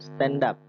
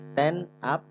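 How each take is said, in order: First: The two words are linked together smoothly. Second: The two words are said separately. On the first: "jadinya stand up. Disambung" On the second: "tulisannya stand up"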